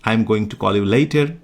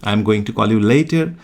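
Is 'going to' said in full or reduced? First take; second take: full; full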